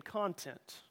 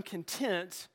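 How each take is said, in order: First: Soft, slow "content", said CON-tent; "content" with a strong CON, like the word for stuff; stress on first syllable. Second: Slow "content", said con-TENT; "content" with a light first syllable and stressed TENT; stress on second syllable. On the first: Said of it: "You emphasize the first syllable". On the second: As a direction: lean on the second syllable of "content", like the word for satisfied. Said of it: "where you emphasize the second syllable". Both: Shown as a demonstration.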